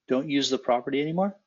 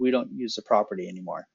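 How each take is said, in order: First: The voice rises at the end. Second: The voice falls at the end.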